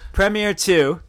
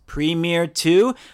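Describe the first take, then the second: First: Premier is said with a British pronunciation. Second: Premier is said with a non-British pronunciation. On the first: The speaker calls it right. "Is that better?" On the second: The speaker calls it wrong. "But not the British pronunciation"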